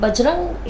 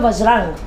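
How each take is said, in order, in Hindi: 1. यह शब्द B ध्वनि से शुरू होता है। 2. यह शब्द V ध्वनि से शुरू होता है। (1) "हम अक्सर बजरंगबली बोलते हैं" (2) "असल में वो है वज्रांग"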